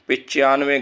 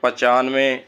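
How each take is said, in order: First: The first vowel is a short i sound. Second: The first vowel is a short a sound. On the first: The speaker calls it wrong. "गलत है" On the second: The speaker calls it right. "शुद्ध रूप है"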